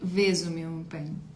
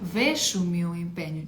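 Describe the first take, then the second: First: The first word has a z sound. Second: The first word has a sh sound. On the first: "воно перетворюється в звук з" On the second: "слово веш"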